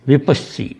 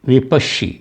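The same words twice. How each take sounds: First: The middle consonant is a plain s sound. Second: The middle consonant is an sh sound. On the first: This is the older Pali form of the name. "पाली भाषा में उस समय शी वगैरह ये नहीं थे, सी स स का उच्चारण जाता था।" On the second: This is the later form of the name. "ये बाद के हैं।"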